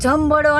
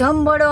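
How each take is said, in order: First: The middle has a 'mb' sound with a 'd'. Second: The middle has a 'mb' sound with a 'd'.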